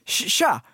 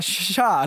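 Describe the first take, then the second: First: Halting, higher-pitched imitation of an awkward hi; awkward greeting. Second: Mock-stiff, single-word hello; stiff greeting. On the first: Neighbour greets her unexpectedly at the lift, imitated stammered greeting. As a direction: stumble into a stiff little hello. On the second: Scared neighbour answers the greeting by the lift, imitated stiff hello. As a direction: imitate an awkward reply without stammering. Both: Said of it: "liksom, så här stelt".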